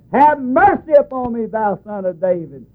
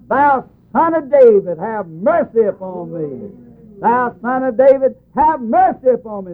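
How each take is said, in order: First: Mock yell, starting high and dropping; screamed even louder. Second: Mock beggar's cry, pitched high. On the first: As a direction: imitate a desperate beggar calling higher. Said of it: "He just screamed even more louder". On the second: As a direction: retell a blind man's high plea for mercy. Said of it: "And he cried out".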